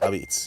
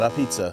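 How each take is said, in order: First: It ends in a clipped 'beets' sound. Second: It sounds like standard English 'a pizza'. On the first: The speaker calls it right. "how we pronounce it" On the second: The speaker calls it wrong. "not a pizza"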